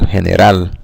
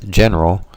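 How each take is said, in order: First: The stress is on the last syllable. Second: The stress is on the first syllable. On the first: "with the stress being the last one" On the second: "the stress in the English word is, ... in the first syllable"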